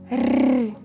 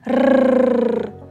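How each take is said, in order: First: The R sound is soft, palatalized. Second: The R sound is hard, not palatalized. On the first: "Как рычит маленький тигр? ... а звук Р, он мягкий" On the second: "Как рычит большой взрослый тигр? ... Звук Р, он согласный, твердый"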